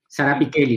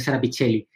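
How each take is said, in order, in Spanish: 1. Se dice con sonidos de letras italianos. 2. Se lee con sonidos de letras españoles.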